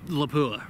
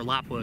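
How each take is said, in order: First: The name is said with everyday English sounds. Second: The name is said with native Finnish sounds. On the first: The speaker calls it wrong. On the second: The speaker calls it right.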